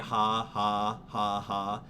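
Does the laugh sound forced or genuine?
forced. The laugh sounds forced and put on.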